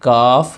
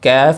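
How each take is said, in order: First: The vowel sounds like 'aa'. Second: The vowel sounds like 'ay'. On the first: The speaker calls it right. "इसे काफ ही पढ़ना है" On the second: The speaker calls it wrong. "कैफ नहीं पढ़ना"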